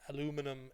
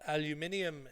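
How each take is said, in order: First: It is said the American and Canadian way. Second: It is said the British and Irish way. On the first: "in America and Canada" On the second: "in Ireland and England"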